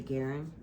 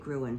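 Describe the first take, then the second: First: The name is pronounced like 'Guerin'. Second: The name is pronounced like 'Gruen'. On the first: This is the name's actual pronunciation. The speaker calls it right. "but it's really Guerin" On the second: This is a habitual personal version. The speaker calls it wrong. "I say Gruen"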